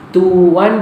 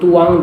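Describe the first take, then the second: First: The word ends with a plain n sound. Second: The word ends with an ng sound. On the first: This is the standard form. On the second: This is the Terengganu dialect form.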